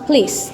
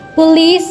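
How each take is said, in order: First: The first vowel is dropped, leaving one syllable. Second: The word is said with two syllables.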